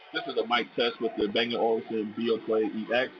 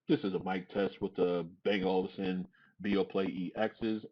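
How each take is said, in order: First: The voice is heard over crowd noise. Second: The voice is heard over quiet surroundings. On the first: "in a crowded location" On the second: "in a quiet location"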